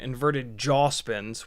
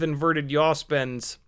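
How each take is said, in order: First: The word 'yaw' begins with a J sound. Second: The word 'yaw' begins with a Y sound.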